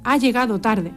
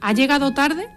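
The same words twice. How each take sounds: First: It is said as an exclamation. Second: It is said as a question.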